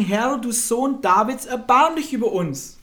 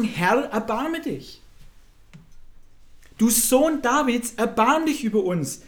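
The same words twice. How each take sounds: First: Insistent acted cry, high and loud; noch lauteres Rufen. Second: Acted plea, raised pitch, drawn-out words; flehendes Rufen. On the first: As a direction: cry out for mercy more urgently, stretching the words. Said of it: "riefen nur noch mehr und sprachen". (noch dringlicher und lauter flehen) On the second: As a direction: call out for mercy, somewhat loudly. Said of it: "riefen sie und sprachen". (gespielt flehend rufen)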